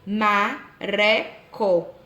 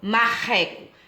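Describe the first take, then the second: First: The middle r is a weak, tapped sound. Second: The middle r is a strong, throaty sound. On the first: It names no real animal. The speaker calls it wrong. "ele teria o som fraco e não, pronuncia, não pronunciaria corretamente o nome do animal" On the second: It names the animal correctly. The speaker calls it right. "Coçar minha garganta no início, mar, e empurrar depois"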